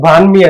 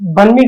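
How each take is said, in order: First: The first vowel is long, like 'bahn'. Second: The first vowel is short, like 'bun'. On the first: The speaker calls it right. "బాన్మీ అది యాక్చువల్గా" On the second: The speaker calls it wrong. "బన్మీ కాదు"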